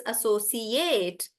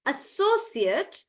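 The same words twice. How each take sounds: First: "associate" with stretched "ATE"; "associate" as "a-so-see-AYT"; verb pronunciation. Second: "associate" stressed on SO, short ending; "associate" as "a-SO-sut"; noun pronunciation. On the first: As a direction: draw out the end of "associate". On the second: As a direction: stretch SO in "associate". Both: Shown as a demonstration. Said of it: "noun versus verb".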